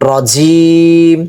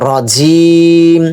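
No difference in how they are said.

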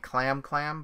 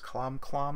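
First: The vowel sounds like the vowel in 'cat'. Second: The vowel sounds like the vowel in 'father'. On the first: This is the usual American way of saying it. "We in the U.S. would say Clam Clam" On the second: This follows the original Japanese pronunciation. "it's Clom Clom if you go by Japanese pronunciation"

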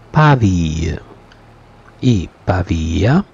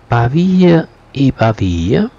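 First: The phrase is said very slowly. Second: The phrase is said at normal speed.

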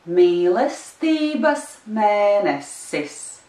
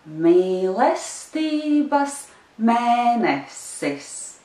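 First: It is said a little faster. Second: It is said slowly.

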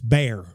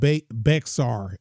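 First: The word sounds exactly like 'bear'. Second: The word does not sound like 'bear'. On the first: The speaker calls it right. "It's Bear, just like grizzly bear" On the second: The speaker calls it wrong. "People be saying Bexar. It's not Bexar"

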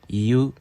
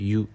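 First: The two vowels are said separately, i then u. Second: The two vowels merge into one long yu sound. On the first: "이유인데" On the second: "실제로 좀 빨리 말할 때는 유라고 되겠죠"

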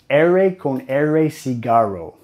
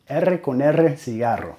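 First: It is said with an American English R. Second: It is said with a trilled Spanish R.

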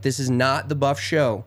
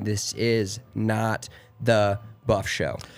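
First: It is said at normal speed. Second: It is said slowly.

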